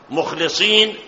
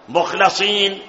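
First: مخلصين said mukhlisin, with an i vowel on the l; kasra on the lam. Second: مخلصين said mukhlasin, with an a vowel on the l; fatha on the lam. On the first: Preacher teaching the congregation the kasra reading, careful and clear. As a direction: say مخلصين with the lam broken, mukh-LI-sin. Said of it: "بكسر اللام". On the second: Preacher teaching the congregation the fatha reading, careful and clear. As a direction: say مخلصين with the lam opened, mukh-LA-sin. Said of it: "بفتح اللام". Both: Shown as a demonstration.

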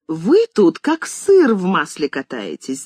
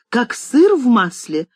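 First: Said in the usual way. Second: "как сыр в масле" slowed, each word weighted; comic seriousness. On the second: A narrator's reading. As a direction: repeat "как сыр в масле" slowly with mock gravity. ("как сыр в масле" медленно, с забавной серьёзностью) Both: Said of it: "повторила она с забавной серьёзностью".

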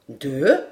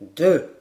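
First: Low, rising question of disbelief; surprised one-word query. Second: Low, firm reply; firm one-word assertion; affirmative. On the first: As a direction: echo it back as an astonished question. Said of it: "dit Glenarvan très surpris". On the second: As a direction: state it as settled fact, pitched down. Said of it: "d'un ton affirmatif". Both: A narrator's reading.

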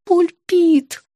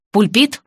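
First: High, falling moan. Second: ПУЛЬПИТ rising as a question, at normal pitch; puzzled repeat. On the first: Patient naming her toothache, moaning. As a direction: groan it in a small pained voice. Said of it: "простонала я". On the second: Friend taking ПУЛЬПИТ for a surname, rising puzzled question. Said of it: "повторил". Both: A narrator's reading.

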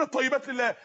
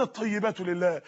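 First: Said in the usual way. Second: Slow, lower, weighty الطيبات لله; solemn emphasis. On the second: Shown as a demonstration. Preacher to congregation, slow solemn stress on الطيبات. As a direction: lean on الطيبات, drawn out and falling. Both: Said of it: "بتقول لربنا".

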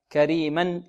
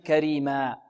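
First: "كريما" said kareeman, with final n; tanween sounded. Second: "كريما" said kareemaa, no final n; alif at pause. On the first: Teacher gives the running form first, "كريما" ending in -an. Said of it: "ولما كان التنوين في الوقف". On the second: Teacher gives the stopped form, "كريما" ending in long aa. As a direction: end "كريما" on an open long aa. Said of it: "يقلب ألفا". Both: Shown as a demonstration.

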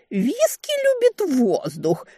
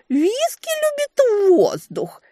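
First: Higher, slow whiny mimicry; mocking imitation. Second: Very high, slow squeaky mimicry; mocking imitation. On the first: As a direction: parrot him in a silly voice. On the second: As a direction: ham up his voice, shrill and slow. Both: A narrator's reading. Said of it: "передразнила она".

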